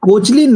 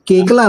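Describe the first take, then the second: First: The surname is said like Kochlin, with a ch. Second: The surname is said like Kekla, without ch. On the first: The speaker calls it wrong. "ये कल्कि कोचलिन नहीं है" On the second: The speaker calls it right. "कल्कि केकला नाम है वो"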